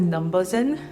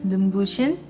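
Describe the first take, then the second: First: The consonant before the last vowel sounds like 'z'. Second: The consonant before the last vowel sounds like 'sh'. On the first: This is how people commonly say the brand. "But I think people pronounce it Numbuzin" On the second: This is the intended Korean expression. "I think they meant to say Numbushin"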